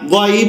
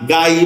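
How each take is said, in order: First: The vowel is a heavy, rounded 'o' sound. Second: The vowel is an open, thin 'aa' sound. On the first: The speaker calls it right. "গই বলতে হবে" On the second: The speaker calls it wrong. "গাই বলা যাবে না"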